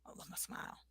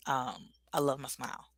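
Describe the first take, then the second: First: A breathy private repeat; barely voiced whisper to the mirror. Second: Said in the usual way. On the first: Shown as a demonstration. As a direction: whisper it to yourself. Repeating affirmation to herself.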